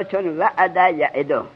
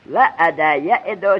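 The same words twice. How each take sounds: First: چون وعد یعدو said slowly; slow drill repeat. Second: وعد یعدو stretched very slowly; slow drill of وعد یعدو. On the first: Teacher repeating the form slowly for the class. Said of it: "repeats form". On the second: Teacher slowly dictating وعد یعدو to students. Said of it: "drills form again". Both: Shown as a demonstration.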